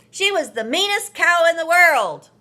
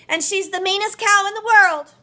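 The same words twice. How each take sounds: First: Loud, high, sneering sister voice; mean sister. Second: Put-on high, loud and quick child voice; boastful little boy. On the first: May telling Marvin off about Rosie, loud and sneering. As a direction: spit it out with contempt. Sister insulting the dead cow. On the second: Marvin telling his family about Rosie, high and fast. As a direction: rush it out proudly. Boy echoing sister's insult. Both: A narrator's reading.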